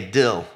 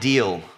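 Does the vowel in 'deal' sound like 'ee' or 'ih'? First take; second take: ih; ee. First: The vowel is a short 'ih' sound. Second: The vowel is a long 'ee' sound. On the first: "Okies, they say dill" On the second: "they don't say deal"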